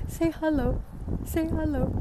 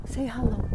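First: Higher, sing-song coaxing; coaxing pet voice. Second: Said in the usual way. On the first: Real, not acted. To the pet, urging it to greet the camera, sing-song coaxing. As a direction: coax the little one to say hello.

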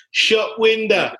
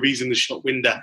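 First: High, slow drawn-out Harry Redknapp; Harry Redknapp impression. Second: Said in the usual way. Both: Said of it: "as Harry Redknapp would once say".

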